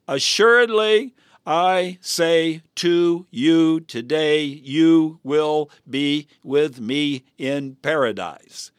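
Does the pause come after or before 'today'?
after. The pause comes right after 'today'.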